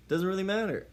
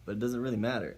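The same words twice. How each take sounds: First: "doesn't really matter" jumps much higher and louder; emphatic repeat. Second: Said in the usual way. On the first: Real, not acted. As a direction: hammer the point home.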